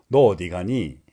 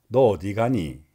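Both takes have the same delivery.

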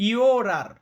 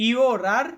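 No difference in how they are said.

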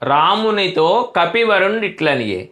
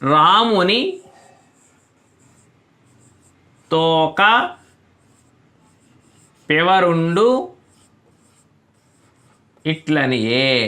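First: The first break comes after 'Ramunito'. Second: The first break comes after 'Ramuni'. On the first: "రామునితో కపివరుండిట్లనియే అనే వాక్యం" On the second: "పదాల మధ్యలో ఉన్న ఆ విరామాన్ని మార్చి చూద్దాం"

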